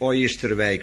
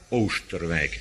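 First: The first vowel is a gliding diphthong. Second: The first vowel is a long oo. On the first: The speaker calls it wrong. "En niet" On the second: The speaker calls it right. "maar Oosterwijk eigenlijk"

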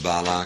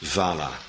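First: The word begins with a b sound. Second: The word begins with a v sound.

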